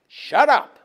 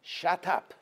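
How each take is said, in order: First: Shouted command. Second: Said in the usual way. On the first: Shown as a demonstration. God silencing Moshe's question, a shouted Shut up. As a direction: Shut up shouted, much higher and louder. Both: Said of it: "Shtok" means".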